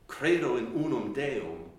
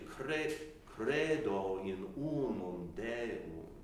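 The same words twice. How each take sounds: First: The accents are heavy, pressed stresses. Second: The accents are light, high and stretched. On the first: The speaker calls it wrong. "We say it with our accentuation" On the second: The speaker calls it right. "It's lighter, it's higher, it's stretched a little bit"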